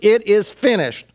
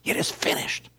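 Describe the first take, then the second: First: It is cried out loudly with strength. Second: It is said in a soft whisper.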